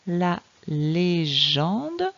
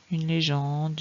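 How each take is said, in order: First: Very slow "La légende", syllable by syllable, rising at the end; deliberate, drawn-out phonics reading; slow sounding-out. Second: Said in the usual way. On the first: Shown as a demonstration. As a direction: read it for a beginner, stretching each syllable. Teacher models word for reading.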